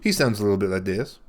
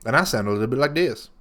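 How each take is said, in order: First: Impression of his dad. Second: Said in the usual way. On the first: Shown as a demonstration. Doing his dad for the host, a slight impression. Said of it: "Give that to me one more time".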